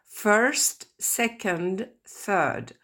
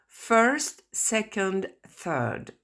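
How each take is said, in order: First: First, second, third repeated clearly for learners; repeated model pronunciation. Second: First, second, third spelled out slowly for learners; careful model pronunciation. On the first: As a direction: say each ordinal again for the class. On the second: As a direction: model each ordinal clearly. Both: Shown as a demonstration. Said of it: "Je répète".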